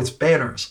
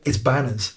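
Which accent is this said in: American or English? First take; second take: American; English. First: It is said in an American accent. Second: It is said in an English accent. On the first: Listeners understand the name easily. The speaker calls it right. "I have to say in an American accent" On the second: Listeners do not understand the name. The speaker calls it wrong. "if I say, it's Banners, then they're like, what?"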